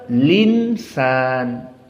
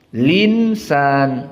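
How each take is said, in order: Both takes have the same delivery.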